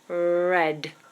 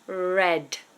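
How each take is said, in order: No difference in how they are said.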